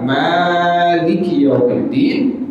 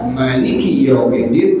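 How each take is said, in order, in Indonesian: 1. Vokal pertama pada maliki dibaca panjang. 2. Vokal pertama pada maliki dibaca pendek. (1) "dibaca panjang maliki yaumiddin dengan alif" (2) "tanpa ada tanpa ada alif"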